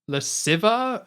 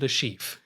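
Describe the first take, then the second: First: The name is said in a garbled, altered way. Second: The name is said with its French pronunciation. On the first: The speaker calls it wrong. "He says like Le Civa" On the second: The speaker calls it right. "he doesn't say Le Chiffre"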